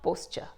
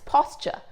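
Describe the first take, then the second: First: "posture" with a long "oh", as POHS-cher; mispronunciation. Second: "posture" with an open "pos" first vowel; correct pronunciation. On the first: Teacher shows viewers what not to say, mispronounced "posture". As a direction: say "posture" wrongly, rhyming its start with "post". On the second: Teacher tells viewers the word, correct pronunciation of "posture". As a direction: say "posture" as POSS-cher. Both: Shown as a demonstration. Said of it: "not posture".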